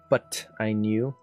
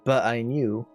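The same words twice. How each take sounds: First: The T in 'but' has a clear tongue flick. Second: The T in 'but' has no tongue flick. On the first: "But since it's in there" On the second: "If he went, but I knew, I wouldn't need that tongue flick"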